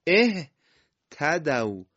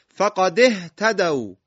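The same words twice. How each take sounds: First: "اهتدوا" started alone as ehtadaw, very slow; hamza with kasra. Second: Loud, slow, high, "فقد اهتدوا" linked as faqadi-htadaw; joined recitation. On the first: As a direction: begin "اهتدوا" on e/i and stretch it out. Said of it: "همزهٔ وصل هم با علامت کسره". (شروع کشیدهٔ «اهتدوا» با کسره) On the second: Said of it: "فقط رو نخواهیم بخونیم". (تلاوت بلند و کشیده، «اهتدوا» متصل به «فقد») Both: Shown as a demonstration.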